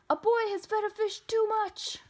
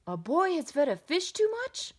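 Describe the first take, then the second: First: High, loud, held-up alarm call; urgent report. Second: Loud, swooping question rising on "too much"; incredulous echo question. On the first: Policeman radioing the firemen, urgent high call. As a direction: announce the emergency at a high pitch. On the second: Firemen questioning policeman's report, incredulous rise on "too much". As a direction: repeat it back in disbelief, lifting "too much". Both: A narrator's reading.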